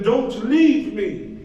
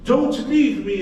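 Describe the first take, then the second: First: Slow, drawn-out pleading; desperate plea. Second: Higher, louder cry of begging; louder desperate plea. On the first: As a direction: stretch it out, begging. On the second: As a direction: push it up into a cry. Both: Acted. Trapped man begging.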